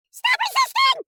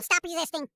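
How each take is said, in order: First: High, loud cop yell. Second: Said in the usual way. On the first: Pretend. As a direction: shout it as an order. Cop yelling at suspect.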